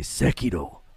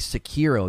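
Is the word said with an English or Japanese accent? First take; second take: Japanese; English. First: It is said with crisp, bouncing Japanese-style consonants. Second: It is said with smooth, English-style sounds. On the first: "they say Sekiro" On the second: "they don't say Sekiro"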